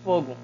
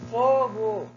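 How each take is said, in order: First: The word is said calmly, without shouting. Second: The word is shouted loudly as an alarm. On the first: It is just a loose word. "se eu digo apenas fogo, é uma palavra solta" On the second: It works as a full sentence. "eu gritei"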